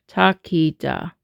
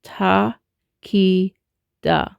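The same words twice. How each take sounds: First: "Ta, ki, da" run together as one word; three even syllables, falling at the end; joined-up syllables. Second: "ta, ki, da" with a gap after each; spaced-out teaching demo; syllable by syllable. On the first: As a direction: link the three syllables smoothly. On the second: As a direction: demonstrate each syllable separately. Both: Shown as a demonstration. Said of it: "we're now gonna say".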